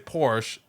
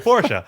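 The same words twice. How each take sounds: First: It is said with an English pronunciation. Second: It is said with a German pronunciation. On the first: The speaker is talking in English. "if I'm speaking English, I'll say" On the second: The speaker is talking in German. "if I'm speaking German, ... I would say"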